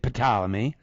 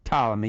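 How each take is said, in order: First: The word begins with an audible P sound. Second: The word begins with a T sound, no P. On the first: The speaker calls it wrong. "you don't say the P, so you don't say Ptolemy" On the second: The speaker calls it right. "It's just Ptolemy"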